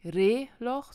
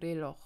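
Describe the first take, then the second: First: Reloch with a loud stress on the first syllable, Re-; wrong first-syllable stress. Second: Reloj stressed on its final syllable, -loj; stress on last syllable. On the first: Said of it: "man sagt nicht". (Reloch falsch auf der ersten Silbe betont) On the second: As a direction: say Reloj correctly, weight on the second syllable. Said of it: "sondern man sagt". (Reloj richtig auf der letzten Silbe betont) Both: Shown as a demonstration.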